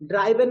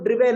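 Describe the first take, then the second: First: The first vowel sounds like 'eye'. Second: The first vowel sounds like 'it'. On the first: The speaker calls it wrong. "ड्राइवन नहीं है" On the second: The speaker calls it right. "वो ड्रिवेन है"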